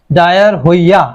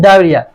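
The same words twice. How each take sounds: First: "ডায়ার হইয়া" broken up as written, with the silent h sounded; spelling pronunciation. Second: "ডায়রিয়া" said as dai-ri-a, h and o silent; correct pronunciation. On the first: Teacher showing students how diarrhoea looks when written, spelling pronunciation. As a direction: say "ডায়ার হইয়া" as dai-ar-hoi-ya, letter by letter as spelt. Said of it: "এইচটা উচ্চারণ হবে না".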